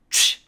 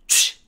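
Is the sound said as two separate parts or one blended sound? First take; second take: one sound; one sound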